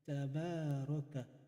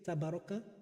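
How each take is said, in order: First: The vowel after the b is long. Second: The vowel after the b is short. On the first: The speaker calls it right. "you have to read the alif" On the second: The speaker calls it wrong. "you don't say tabaraka"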